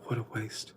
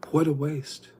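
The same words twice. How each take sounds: First: Soft unvoiced whisper, much softer. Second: Higher and louder exclamation; exclaimed. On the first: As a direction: breathe it out in dismay. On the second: Retold or imitated. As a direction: call it out in disbelief. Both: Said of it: "I'm like".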